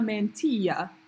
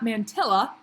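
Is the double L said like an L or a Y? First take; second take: Y; L. First: The double L is said as a Y sound. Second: The double L is said as an L sound. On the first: The speaker calls it right. "Two L's in Spanish are a Y" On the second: The speaker calls it wrong. "it's not mantilla"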